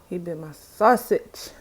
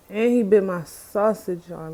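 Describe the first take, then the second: First: "sausage" stressed, slow and louder, rising at the end; slow "He bit my sausage" rising on "sausage"; emphasis on sausage. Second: Slow, aggrieved "he bit my sausage" with "he" punched; indignant emphasis. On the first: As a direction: land on "sausage" with an upward, disbelieving lift. Repeats the complaint. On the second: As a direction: stress on he, slow and louder, falling at the end. Complaining, repeats the line. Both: Real, not acted.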